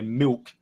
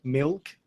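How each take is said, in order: First: "milk" with the L turned into a W, like "miwk". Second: "milk" with a clear L before the K. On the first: Showing how Adelaide says it, "milk" with W for L. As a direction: round the L of "milk" into a W sound. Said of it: "more with a W". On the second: Showing the proper way to say it, "milk" with a clear L. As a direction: sound the L fully in "milk". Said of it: "with an L". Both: Shown as a demonstration.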